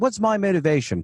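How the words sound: It is said in a put-on British accent.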